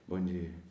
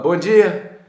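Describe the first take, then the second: First: It is said quietly and timidly. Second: It is said loudly and confidently.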